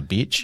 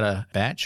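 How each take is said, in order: First: The word is said in a Kiwi accent. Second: The word is said in a neutral accent.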